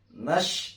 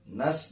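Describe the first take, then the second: First: It ends in an sh sound. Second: It ends in a clean s sound. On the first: The speaker calls it wrong. "jangan nash" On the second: The speaker calls it right. "terdengar bersih"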